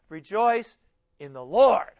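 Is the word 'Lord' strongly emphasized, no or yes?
yes. The word Lord is strongly stressed.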